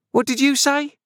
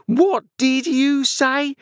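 First: Very high, shrieked demand; beginning to scream. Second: Very high, slow, outraged shriek; drawn-out scream. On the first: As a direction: shriek it in outrage, fairly quick. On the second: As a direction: stretch out each word as you start screaming. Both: A narrator's reading. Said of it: "beginning to scream".

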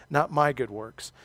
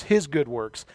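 First: "my" stressed, slower and a bit quieter; "not my" weighed out slowly. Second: His leaned on, falling; "his" stressed as the one that counts. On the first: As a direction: lean on "my" to set it against "his". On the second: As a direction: put the weight on "his". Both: Real, not acted. Contrasting his works with mine.

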